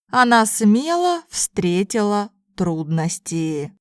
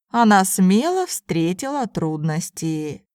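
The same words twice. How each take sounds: First: It is spoken slowly and carefully. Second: It is spoken at a normal conversational pace. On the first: "first in slow Russian" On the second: "then in normal speed Russian"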